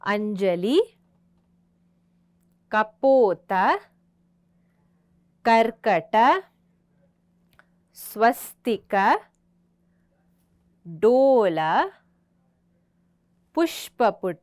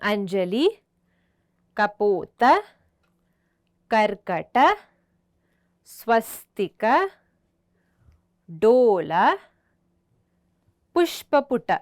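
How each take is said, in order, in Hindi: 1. नाम धीमी गति से बोले गए हैं। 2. नाम तेज़ गति से बोले गए हैं।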